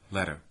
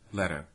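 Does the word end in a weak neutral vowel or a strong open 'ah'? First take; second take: weak neutral; weak neutral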